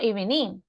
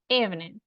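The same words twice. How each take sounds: First: The stress is on the second syllable. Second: The stress is on the first syllable. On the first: The speaker calls it wrong. "porque no digo evening. No" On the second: The speaker calls it right. "At first. / Ujú"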